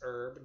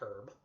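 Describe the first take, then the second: First: The word starts without an h sound. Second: The word starts with an h sound. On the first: The speaker calls it right. "the H is silent, it is herb" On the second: The speaker calls it wrong. "not herb"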